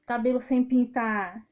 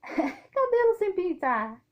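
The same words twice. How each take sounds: First: Said in the usual way. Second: Higher, slow, with a laugh before "Cabelo"; laughing emphasis. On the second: Real, not acted. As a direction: stretch out "Cabelo sem pintar" slowly, laughing at yourself.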